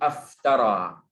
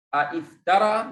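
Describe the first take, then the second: First: It begins with a single vowel. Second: It begins with two vowels in sequence.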